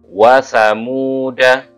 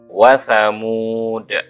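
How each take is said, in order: First: The word ends with a short a vowel. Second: The word ends on a stopped d sound. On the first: The reading continues without stopping. "kalau wasol pendek" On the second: The reading stops at this word. "Kalau di kalau dibaca wakaf gini"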